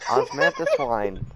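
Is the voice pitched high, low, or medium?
high. The voice is pitched highest of the three. "That's not it"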